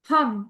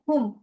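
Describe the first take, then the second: First: The final word is said with an 'a' vowel. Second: The final word is said with an 'u' vowel. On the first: "हुम की जगह हम आ जाता है उसमें।" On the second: "बलाय कवचाय हुम।"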